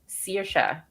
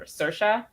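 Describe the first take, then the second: First: The first syllable sounds like 'sear'. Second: The first syllable does not sound like 'sear'. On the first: "I pronounce it Saoirse, like searing meat" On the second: "One like or Saoirse"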